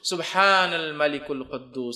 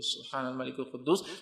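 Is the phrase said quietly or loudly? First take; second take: loudly; quietly. First: The phrase is said loudly. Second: The phrase is said quietly.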